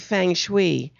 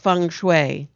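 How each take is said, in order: First: The first vowel sounds like 'eng' in 'length'. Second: The first vowel sounds like 'ung' in 'lung'. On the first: It is read the way it is spelled. The speaker calls it wrong. "When you look at it, you want to say feng shui" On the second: It is said the Chinese way. The speaker calls it right. "but it's feng shui"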